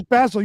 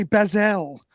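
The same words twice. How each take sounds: First: "basil" said as BAZ-ul; "basil" with short a, stressed on the first syllable; his pronunciation imitated. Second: "basil" said as baz-ELL; "basil" with the stress thrown onto a full ELL; your pronunciation imitated. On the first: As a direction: make "basil" rhyme with dazzle. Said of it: "but he says basil". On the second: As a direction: make "basil" rhyme with gazelle. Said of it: "you say basil".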